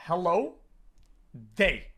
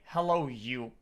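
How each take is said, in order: First: "Hello, they." with a stressed, falling "they"; right greeting. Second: "Hello, you." said low as the wrong way; lowly mock the rude "you"; wrong greeting. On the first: Streamer showing chat the polite greeting, stressed. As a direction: land firmly on "they". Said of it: "You say". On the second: Streamer showing chat the wrong greeting, low. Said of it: "you don't say". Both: Shown as a demonstration.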